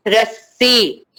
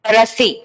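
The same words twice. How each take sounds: First: रस्सी with a held double स; teacher models the correct doubled s in रस्सी; correct doubled consonant. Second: रस्सी said as rasi with one short स; wrong single consonant. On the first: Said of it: "तो इसीलिए". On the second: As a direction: drop the double स in रस्सी. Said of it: "अगर वो ये सा निकाल दिया तो वो क्या हो गया?". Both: Shown as a demonstration.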